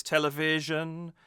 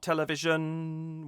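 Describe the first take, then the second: First: "television" with VI strongest, last syllable held; stress on VI. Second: "television" chanted high with weight off the VI, end held; strange wrong stress. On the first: Singing coach shows the singer's phrasing, "television" weighted on VI. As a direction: lean on VI, then hold the end of "television". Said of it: "making v still more emphasized than telly". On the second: Singing coach shows the stranger option, "television" without its VI stress. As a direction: chant "television" evenly, landing on the last syllable. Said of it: "would sound a little more strange".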